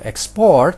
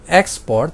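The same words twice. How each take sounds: First: The stress is on the last syllable. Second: The stress is on the first syllable. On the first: The word is a verb. "tapi kalau export, nah dia adalah kata kerja" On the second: The word is a noun. "kalau bilang export maka dia adalah kata benda"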